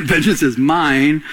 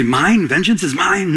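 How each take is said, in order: First: "mine" drawn out slowly as a firm claim; God's declaration. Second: "mine" as a questioning claim, as if it were one's own; mistaken claiming question. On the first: God correcting the listener, slow declarative stress on "mine". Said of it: "God's saying". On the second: Listener mistakenly claiming vengeance, questioning stress on "mine". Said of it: "You might say". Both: Acted.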